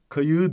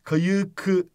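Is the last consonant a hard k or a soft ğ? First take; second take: soft ğ; hard k. First: The last consonant is a soft ğ. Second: The last consonant is a hard k. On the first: The speaker calls it right. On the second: The speaker calls it wrong. "değil"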